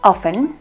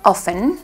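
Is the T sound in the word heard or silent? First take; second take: silent; silent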